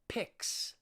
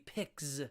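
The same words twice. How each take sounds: First: The word ends with a voiceless s sound. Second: The word ends with a voiced z sound. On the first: The speaker calls it right. "you'd say picks" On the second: The speaker calls it wrong. "It wouldn't be a Z. It wouldn't be picks"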